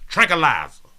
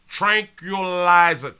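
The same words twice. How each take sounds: First: The word is said at a fast pace. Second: The word is said at a slow pace.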